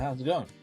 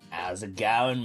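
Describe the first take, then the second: First: It has a mild Australian accent. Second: It has a strong, broad Australian accent. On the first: "Instead of someone going" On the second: "Someone goes, ... Kind of like that"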